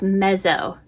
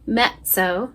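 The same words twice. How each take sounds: First: The double z is a plain buzzing z. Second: The double z is a sizzling sound. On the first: The speaker calls it wrong. "we don't say this mezzo" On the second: The speaker calls it right. "it's like a sizzle"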